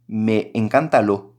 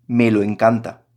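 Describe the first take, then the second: First: Drawn out slowly, testing how it sounds; slow test phrase. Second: Said in the usual way. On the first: Shown as a demonstration. Teacher tries the pronoun swap to students, slowly. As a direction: stretch it out, as if checking it. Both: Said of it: "suena fatal".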